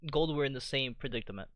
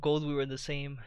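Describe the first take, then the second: First: Said in the usual way. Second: Talking through a yawn; words stretched by a yawn. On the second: Real, not acted. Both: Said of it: "sorry, I was yawning".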